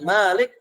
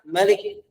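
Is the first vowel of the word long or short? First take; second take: long; short. First: The first vowel is held long. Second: The first vowel is kept short. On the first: It means the one who owns. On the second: It means king.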